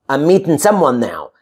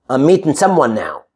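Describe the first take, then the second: Both takes have the same delivery.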